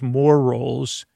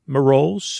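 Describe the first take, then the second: First: Said in the usual way. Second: "Ma rolls" said as one slurred word, like marole. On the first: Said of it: "instead of". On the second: Shown as a demonstration. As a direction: run "Ma rolls" together as ma-roles. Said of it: "you say".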